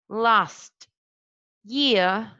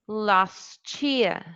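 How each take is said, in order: First: The t and y are said separately. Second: The t and y merge into a ch sound. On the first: "instead of saying last year" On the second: "you say last year"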